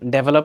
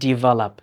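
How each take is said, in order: First: The first vowel sounds like 'deh'. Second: The first vowel sounds like 'dih'. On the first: The speaker calls it wrong. "But এটা কিন্তু ডেভেলপ না" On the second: The speaker calls it right. "এটা উচ্চারণ হবে ডিভেলপ"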